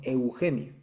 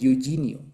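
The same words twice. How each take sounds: First: It is said with a Spanish eu sound. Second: It is said with an English-speaker's accent. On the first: The speaker calls it right. "Nosotros decimos Eugenio" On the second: The speaker calls it wrong. "los gringos no pueden decir Eugenio, dicen"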